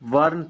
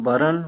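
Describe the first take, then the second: First: The r and n sounds are joined together. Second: A vowel separates the r and n sounds. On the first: This is the Hindi form. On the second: This is the Khortha form.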